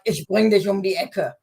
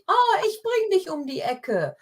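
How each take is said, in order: First: It sounds menacing and threatening. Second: It sounds friendly and helpful.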